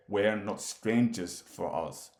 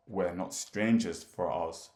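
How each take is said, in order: Both takes have the same delivery.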